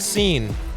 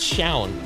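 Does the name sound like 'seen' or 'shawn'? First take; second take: seen; shawn. First: The name is said with an 'ee' vowel. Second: The name is said with an 'aw' vowel. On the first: The speaker calls it wrong. "it's not seen" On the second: The speaker calls it right. "It's Shaun"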